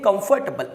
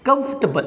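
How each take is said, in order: First: कंफर्टेबल in four parts, kum-for-tay-bul; wrong pronunciation. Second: कंफर्टेबल squeezed to KUMF-tuh-bul, higher; correct pronunciation. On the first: Teacher shows what people say, four-part kum-for-tay-bul. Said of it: "पूरी तरह से wrong है". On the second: Teacher models the right sound for learners, short KUMF-tuh-bul. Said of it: "इसको बोलना है". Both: Shown as a demonstration.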